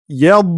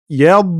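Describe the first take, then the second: The two takes are said the same way.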